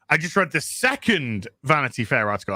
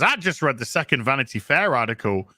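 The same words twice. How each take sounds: First: The word 'second' is strongly stressed. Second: The word 'second' gets no special stress.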